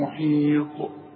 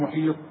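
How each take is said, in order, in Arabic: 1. تُنطق التاء في الآخر مع صدى يرتد. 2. تُقطع التاء في الآخر بدون صدى. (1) "شوف القلقلة" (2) "ما قلش"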